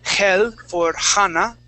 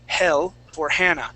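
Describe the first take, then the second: First: The H sounds are strong and forceful. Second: The H sounds are soft and breathy. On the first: The speaker calls it wrong. "you pronounce your H's really strong" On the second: The speaker calls it right. "It's like a breath. It's very light"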